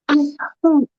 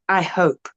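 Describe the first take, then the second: First: It is said expressively, with feeling. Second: It is said flatly, with little feeling. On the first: The speaker calls it right. "The second one" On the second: The speaker calls it wrong. "Not just"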